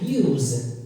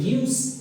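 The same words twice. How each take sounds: First: The word ends with a z sound. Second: The word ends with an s sound. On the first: "The second sound is z" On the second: "The first one is s"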